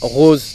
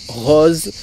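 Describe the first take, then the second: First: It is said with a standard French accent. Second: It is said with a southern French accent. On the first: "je dis pas rose" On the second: "moi j'ai un petit accent du sud, ... je dis rose"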